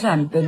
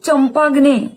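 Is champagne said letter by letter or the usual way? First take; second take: usual way; letter by letter. First: It is said smoothly as sham-pain. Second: Every written letter is sounded, like champ-ag-ne. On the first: "त्याचा उच्चार हा शॅम्पेन होतो" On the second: "स्पेलिंगच्या उच्चाराप्रमाणे लक्षात ठेवायचे"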